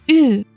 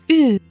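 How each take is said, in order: Both takes have the same delivery.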